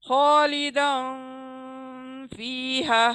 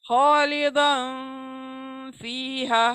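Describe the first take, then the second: No difference in how they are said.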